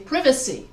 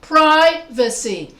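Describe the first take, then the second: First: The stress is on the second syllable. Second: The stress is on the first syllable. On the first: "British English, they say privacy because they stress V A" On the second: "I'm putting the stress on the first syllable of pri"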